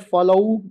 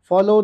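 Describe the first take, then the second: First: The word ends in a drawn-out oo sound. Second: The word ends in a plain o sound. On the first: The speaker calls it wrong. "फॉलोऊ बोलेंगे" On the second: The speaker calls it right. "फॉलो नहीं बोलेंगे"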